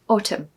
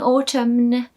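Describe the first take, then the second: First: The word ends on the M with no N. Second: The final N sound is pronounced at the end. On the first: The speaker calls it right. "Just forget the N" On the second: The speaker calls it wrong. "don't try saying autumn. It's just not going to be good"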